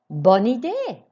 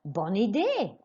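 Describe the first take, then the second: First: Louder, higher, idée falling firmly; louder, keen "Bonne idée", falling on idée; enthusiastic model. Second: Said in the usual way. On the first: Shown as a demonstration. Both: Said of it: "Écoutez et répétez".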